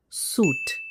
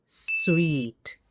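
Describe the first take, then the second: First: "suit" as SOOT with long "oo"; no w in "suit", rhymes with boot; common mispronunciation. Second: "suite" as SWEET, drawn out; a w and long "ee" in "suite"; correct pronunciation. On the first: Teacher rejecting the error, "suit" with oo. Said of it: "This is a common error". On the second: Teacher naming the best room, "suite" like sweet. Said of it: "is suite and certainly not". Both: Shown as a demonstration.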